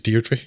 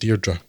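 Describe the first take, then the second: First: The name is pronounced the British way. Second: The name is pronounced the Irish way. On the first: The speaker calls it wrong. "pronounces Deirdre in the British way, which is" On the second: The speaker calls it right. "which is how it's pronounced in Ireland"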